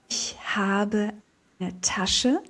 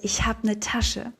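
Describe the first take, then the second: First: Every syllable of habe eine is said fully. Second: Habe loses its final e and eine becomes n. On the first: "we write" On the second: "we take off the E from habe, we transform the eine into n"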